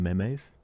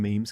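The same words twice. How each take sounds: First: "memes" in two syllables, like "me-mays"; mispronunciation. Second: "memes" as one syllable, rhyming with dreams; usual pronunciation. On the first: Retold or imitated. Mocking how people used to say it, "memes" as "me-mays". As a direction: say "memes" as "meh-mayz". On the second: Shown as a demonstration. Recalling when memes came out, "memes" said as "meems". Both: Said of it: "people would call them memes".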